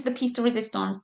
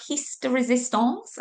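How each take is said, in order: First: Said in the usual way. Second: French accent tinged with Welsh; French accent gone slightly Welsh; bad French accent. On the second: Shown as a demonstration. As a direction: attempt a French accent and miss, ending on a rise. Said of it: "I can't do a French accent".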